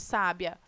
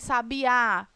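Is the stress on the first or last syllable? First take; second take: first; last. First: The stress is on the first syllable. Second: The stress is on the last syllable. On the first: "O sa" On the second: "O a final"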